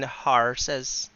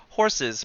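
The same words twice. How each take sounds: First: "horses" as mock-Irish "HAR-suz"; slow Irish-accented "horses". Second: Said in the usual way. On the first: Shown as a demonstration. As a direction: open "horses" to an Irish ah vowel. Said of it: "but you mean horses". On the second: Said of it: "you say it like horses".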